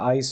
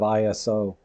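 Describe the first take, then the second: First: It is said as two syllables. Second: It is said as three syllables. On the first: "two syllables" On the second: "instead of three"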